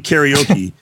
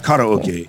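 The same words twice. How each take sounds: First: It is said with an American English pronunciation. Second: It is said with a Japanese pronunciation. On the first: The speaker calls it wrong. "we say karaoke" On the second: The speaker calls it right. "when it's karaoke"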